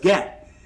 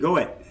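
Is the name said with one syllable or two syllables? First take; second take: one syllable; two syllables. First: The name is said with one syllable. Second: The name is said with two syllables. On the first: The speaker calls it right. "it's get" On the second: The speaker calls it wrong. "go it. No"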